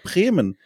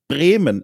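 First: The first consonant is a soft, unaspirated B. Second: The first consonant is a hard, forceful B. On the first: The speaker calls it wrong. "Ich sage ganz oft, zum Beispiel Bremen" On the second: The speaker calls it right. "ich muss mich da richtig anstrengen"

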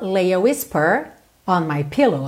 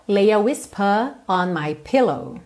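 First: The r in whisper is pronounced with curled tongue. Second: The r in whisper is silent, British-style. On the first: "Se você cantar com sotaque mais americano" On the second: "Mas na gravação original"

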